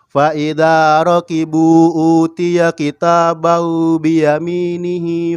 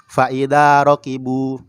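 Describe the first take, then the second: First: The reading flows on without a breath. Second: The reading stops for a breath after rokibu. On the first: The speaker calls it right. "Tidak dipotong-potong" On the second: The speaker calls it wrong. "dipotong, ambil napas lagi"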